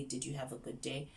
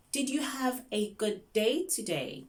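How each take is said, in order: First: Said in the usual way. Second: High, slow, spaced-out question; slow teacher question. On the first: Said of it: "you can say". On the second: Shown as a demonstration. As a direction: ask a young learner slowly and brightly. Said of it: "do not speak fast".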